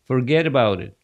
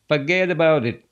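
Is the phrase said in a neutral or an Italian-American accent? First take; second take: neutral; Italian-American. First: It is said in a plain, neutral accent. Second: It is said in an Italian-American Brooklyn accent.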